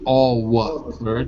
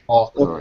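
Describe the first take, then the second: First: A W sound is said in the middle. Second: No W sound is said in the middle. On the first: The speaker calls it wrong. "we don't say awkward because it's too difficult" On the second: The speaker calls it right. "Imagine it spelled like"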